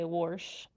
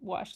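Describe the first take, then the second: First: It is said with a country accent, adding an r. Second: It is said plainly, without an added r.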